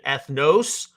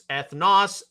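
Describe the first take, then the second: First: The O is said as a long vowel. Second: The O is said as a short vowel. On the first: The speaker calls it wrong. "not a long O sound" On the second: The speaker calls it right. "it's an Omicron, not an omega"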